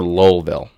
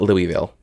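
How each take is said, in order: First: It is said with a reduced Lowell-ville sound. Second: It is said fully, the way it is spelled. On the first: The speaker is a local. The speaker calls it right. "or Lowellville" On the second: The speaker is an outsider. The speaker calls it wrong. "It's not Louisville"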